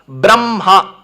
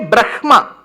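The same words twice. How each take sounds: First: The m sound comes before the h sound. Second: The h sound comes before the m sound. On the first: It follows a special rule for this word. The speaker calls it right. "you should pronounce it as Ma and Ha" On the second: It follows the written letter order. The speaker calls it wrong. "technically, if you pronounce it, you should say Brahma"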